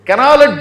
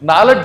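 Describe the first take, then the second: First: The word starts with a k sound. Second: The word starts with an n sound. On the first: The speaker calls it wrong. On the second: The speaker calls it right.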